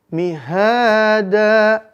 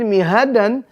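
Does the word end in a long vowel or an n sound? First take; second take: long vowel; n sound. First: The word ends with a long a vowel. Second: The word ends with a short a and n. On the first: This is how it is read when stopping. "An menjadi bacaan panjang" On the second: This is the written form with tanwin. "di tulisannya mihadan"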